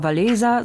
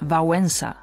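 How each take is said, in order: First: The middle consonant sounds like an L. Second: The middle consonant sounds like a W. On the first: The speaker calls it wrong. "nicht etwa Walesa" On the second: The speaker calls it right. "Dieses L wird bei uns wie das W im englischen Weekend ausgesprochen"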